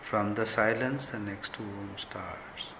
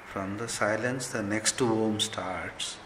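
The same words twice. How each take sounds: The two takes are said the same way.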